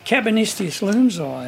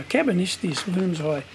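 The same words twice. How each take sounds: First: Said in the usual way. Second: Quieter, like a private thought; thinking to himself. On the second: Retold or imitated. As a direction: mutter it to himself, mulling it over. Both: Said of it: "I'm thinking to myself now".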